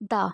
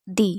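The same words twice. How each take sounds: First: "the" said thuh with a short uh; "the" reduced to thuh. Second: "the" said thee with a long ee; "the" rhymes with see. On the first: Teacher showing "the" before consonants as thuh. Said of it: "Before consonant sound". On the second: Teacher showing "the" before vowels as thee. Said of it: "before vowel sound". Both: Shown as a demonstration.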